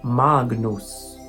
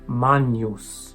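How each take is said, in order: First: A hard g is followed by n. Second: The g and n merge into 'ny'. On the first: This is the classical pronunciation. "In classical pronunciation" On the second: This is the church pronunciation. "In ecclesiastical"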